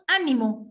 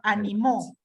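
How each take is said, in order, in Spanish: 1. La sílaba con acento es la primera. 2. La sílaba con acento es la última. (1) "con acento o tilde en la A" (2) "con acento en la última, en la última sílaba"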